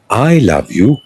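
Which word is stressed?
I. The stress falls on the word I. It is me, not someone else, who loves you. "who loves me? That's the question. Then I say"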